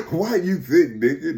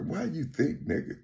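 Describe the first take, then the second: First: Voiced aloud through a laugh; laughing repeat. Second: Hushed, much softer imitation of a whisper; imitated whisper. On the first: Repeating the whispered question to listener, laughing. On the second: Imitating a whisper suddenly heard, hushed. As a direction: drop the volume for a sudden murmured question. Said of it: "you hear a whisper".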